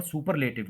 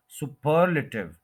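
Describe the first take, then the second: First: Said in the usual way. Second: superlative as su-PER-luh-tiv; superlative with heavy second syllable, quick weak luh; stress on second syllable. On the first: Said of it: "ये word superlative नहीं होता". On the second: Shown as a demonstration. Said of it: "ये होता है".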